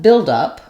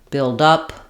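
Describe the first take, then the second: First: The stress falls on the word build. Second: The stress falls on the word up. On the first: It is used as a noun. "Stress on build, it's longer, up is shorter" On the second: It is used as a verb. "We're stressing on up, up is longer, and build is shorter"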